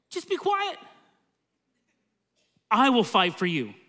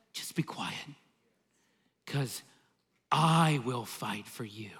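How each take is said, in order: First: Calm divine command. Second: Soft, slow, breathy whisper of "Just be quiet… I will fight for you"; whispered promise. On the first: Preacher voicing God to Moses, high then steady. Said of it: "And God said". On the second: Preacher whispering God's promise to the congregation, soft and slow. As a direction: hush it like a secret reassurance, slowly. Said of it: "You know what God says?". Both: Retold or imitated.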